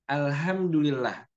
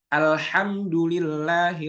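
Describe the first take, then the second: First: The h is a light ordinary sound. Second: The h is a strong throaty breathy sound. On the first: The meaning changes far from praise. The speaker calls it wrong. "orang yang belum bisa membedakan antara H dengan H" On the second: All praise belongs to God. The speaker calls it right. "seharusnya Alhamdulillahi Rabbil Alamin"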